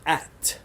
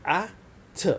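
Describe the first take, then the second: First: Said in the usual way. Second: "A, t" as two separate letter sounds, short a then t; sounded out. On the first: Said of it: "The first one is". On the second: Shown as a demonstration. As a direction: say "A, t" with a clear pause between the sounds. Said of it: "all have the sound of ah".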